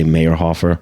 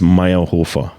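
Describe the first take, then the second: First: The name is said with English pronunciation. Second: The name is said with German pronunciation. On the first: "Usually I say Meyerhofer because that's yeah. how you would pronounce it in English" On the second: "In German, it's Meyerhofer"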